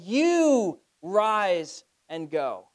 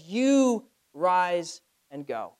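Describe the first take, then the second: First: "You" stressed, slow and emphatic; stressed command. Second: "You" hit, words drawn out slowly; stressed command. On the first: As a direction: punch "You" and deliver it like an order. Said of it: "He's exclaiming it to Ananias". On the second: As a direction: give "You rise and go" as a firm slow order. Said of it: "He commands it". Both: Shown as a demonstration.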